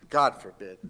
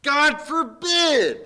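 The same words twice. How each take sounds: First: Said in the usual way. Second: God forbid, slow and drawn out, higher; emphatic. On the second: Shown as a demonstration. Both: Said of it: "make something emphatic".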